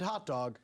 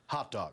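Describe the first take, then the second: First: Said in the usual way. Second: Hot Dog after a long pause, low and falling; pause, then drop into Hot Dog; dramatic pause before Hot Dog. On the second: Shown as a demonstration. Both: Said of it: "Love that dramatic pause".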